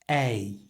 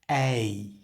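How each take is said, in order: The two takes are said the same way.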